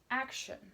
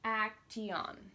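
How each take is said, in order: First: The ending is said quickly as one shun sound. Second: The ending is sounded out slowly, letter by letter. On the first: The speaker calls it right. "you say this ending really quickly" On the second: The speaker calls it wrong. "you don't want to pronounce it like this"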